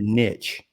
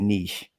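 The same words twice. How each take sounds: First: It is said with a Texan pronunciation. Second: It is said with an other-states pronunciation. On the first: "as we say in Texas" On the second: "In other states, they say niche"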